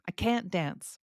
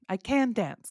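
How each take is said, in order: First: The t at the end of can't is pronounced. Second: The t at the end of can't is dropped. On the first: "So when we have a t sound, it still is clear" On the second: "Even if I do not say the T"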